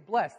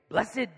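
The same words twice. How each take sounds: First: It is said in a plain everyday voice. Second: It is said in a dramatic preacher voice. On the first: "they wouldn't say blessed" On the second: "they would say blessed. And it's very preachery"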